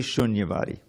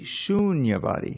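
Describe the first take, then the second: First: The vowel in the first syllable is short. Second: The vowel in the first syllable is long. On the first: The speaker calls it wrong. "Don't say Shunyavadi" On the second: The speaker calls it right. "It's a long U"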